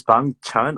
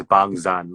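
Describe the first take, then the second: First: "Bang Chan" with a CH sound starting "Chan"; name with CH. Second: "Bang Zan" with a buzzing Z starting "Zan"; name with Z. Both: Shown as a demonstration. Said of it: "So what is the typo?".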